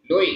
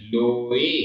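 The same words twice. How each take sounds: First: लोए with लो cut short; लोए rushed, no length on लो; wrong pronunciation. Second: लोए with a long लो; लोए with लो held long; correct pronunciation. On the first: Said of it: "ऐसा नहीं है". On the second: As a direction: draw out लो in लोए. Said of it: "दीर्घ उच्चारण". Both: Shown as a demonstration.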